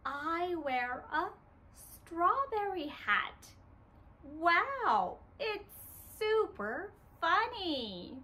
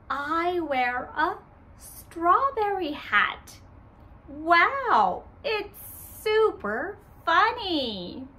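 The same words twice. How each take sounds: First: Put-on softer, letting children lead; quieter. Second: Said in the usual way. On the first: Shown as a demonstration. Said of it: "let's say it together". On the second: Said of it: "I say".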